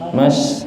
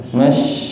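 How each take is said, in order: No difference in how they are said.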